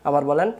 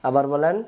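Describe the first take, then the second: No difference in how they are said.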